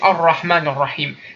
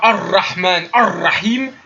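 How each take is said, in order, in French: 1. Le son du r est léger et subtil. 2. Le son du r est lourd et exagéré. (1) "C'est léger. C'est léger, c'est subtil" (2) "C'est pas"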